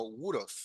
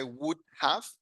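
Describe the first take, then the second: First: "would have" run together as "would'a"; American reduced would have. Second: Said in the usual way. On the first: Shown as a demonstration. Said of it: "el americano no dice would have, sino". ("would have" contraído como "wuda") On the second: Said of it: "sino would have".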